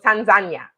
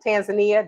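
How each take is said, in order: First: It uses the pronunciation local people use. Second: It uses the commonly taught English pronunciation. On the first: This is how people from the country say it. The speaker calls it right. "people from Tanzania calls it Tanzania" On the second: This is how outsiders were taught to say it. The speaker calls it wrong. "that's what we've been taught"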